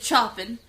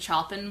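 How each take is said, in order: First: The name is said with French sounds. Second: The name is said with English spelling sounds. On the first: The speaker calls it right. "it's actually Chopin" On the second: The speaker calls it wrong. "I know I'm mispronouncing Chopin"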